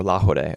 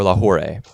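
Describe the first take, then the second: First: Lahore said as "la-HO-day"; alternative pronunciation. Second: Lahore said as "la-HOR-ay"; alternative pronunciation. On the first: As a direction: tap the R in Lahore like a D, ending in "ay". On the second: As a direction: add an "ay" ending to Lahore, keeping the R. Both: Real, not acted. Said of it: "I don't know how you say it".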